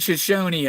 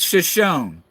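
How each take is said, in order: First: The final e is pronounced as a sound. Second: The final e is left silent. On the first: The speaker calls it wrong. "Some they're saying Shoshone on it" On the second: The speaker calls it right. "You don't pronounce that e"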